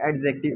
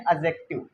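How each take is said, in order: First: The d sound is clearly pronounced. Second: The d sound is left out. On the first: This is the familiar local way of saying it. "पर ठीक है, ... we are Indian" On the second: This is the actual standard pronunciation. "ये डी silent होता है"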